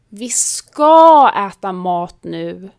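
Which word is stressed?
ska. The stress is on the word ska. Yes, we really will eat, so stop nagging. "betyder ja, sluta tjata, vi ska äta"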